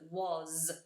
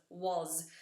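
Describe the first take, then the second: First: The word ends with a buzzing z sound. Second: The word ends with a buzzing z sound.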